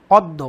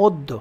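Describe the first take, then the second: First: অদ্য with an open 'aw' first vowel; as written. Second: অদ্য as 'oddo', closed o first; correct pronunciation. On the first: Teacher reading out the word in question, অদ্য with open ɔ. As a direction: say অদ্য starting on open ɔ, as spelt. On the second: Teacher answering how it is pronounced, অদ্য as 'oddo'. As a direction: say অদ্য with a rounded o at the start. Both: Shown as a demonstration. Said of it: "শব্দের উচ্চারণটা কেমন?".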